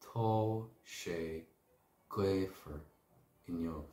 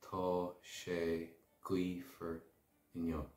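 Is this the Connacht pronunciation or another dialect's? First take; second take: other dialect; Connacht. First: It is pronounced in a non-Connacht way. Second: It is pronounced the Connacht way.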